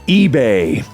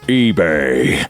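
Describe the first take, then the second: First: It is said in the speaker's ordinary voice. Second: It is said in a deep Optimus Prime voice.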